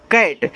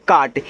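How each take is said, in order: First: कैट with the short English 'a' of cat; correct reading. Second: काट with a long 'aa' vowel, as in 'kaat'; wrong reading. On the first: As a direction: say कैट with an 'ai' vowel, not 'aa'. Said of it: "इनको काट नहीं पढ़ना है, इसे पढ़ते हैं कैट". (कैट, 'ऐ' की मात्रा वाला सही उच्चारण) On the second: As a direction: misread cat as काट, with an open long 'aa'. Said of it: "जिनको तरीका नहीं मालूम है, रूल नहीं मालूम है, वो इसको पढ़ेंगे काट". (काट, लंबे 'आ' की मात्रा वाला गलत उच्चारण) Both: Shown as a demonstration.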